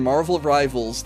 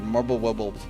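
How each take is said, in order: First: The name is said clearly, with crisp consonants. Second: The name is said mumbled, with the consonants slurred. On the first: The speaker calls it right. "I had no problem saying Marvel Rivals" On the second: The speaker calls it wrong. "the mushmouth pronunciation"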